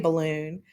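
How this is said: The syllables are run together smoothly. The speaker calls it right. "the normal way we say balloon"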